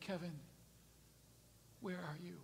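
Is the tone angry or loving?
loving. It is said in a warm, gentle tone. The caller wants to find and restore the one being sought. The speaker calls it right. "God wasn't saying it that way"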